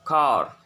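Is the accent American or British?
American. It is said in an American accent.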